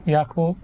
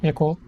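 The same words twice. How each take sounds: First: Yakult with open YAH, YAH-kolt; one accepted pronunciation. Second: Yakult with short first vowel, yeh-KOLT; quick, short ye in Yakult; other accepted pronunciation. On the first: Listing both acceptable ways, the American YAH-kult. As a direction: say Yakult with a full ah first. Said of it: "I guess any is acceptable". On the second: Listing both acceptable ways, the Filipino ya-KULT. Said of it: "is also acceptable". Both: Shown as a demonstration.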